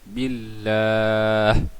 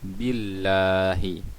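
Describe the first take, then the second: First: The word ends on a silent final consonant. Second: The word ends with a short final vowel. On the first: The reader stops at this word. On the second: The reading continues without stopping.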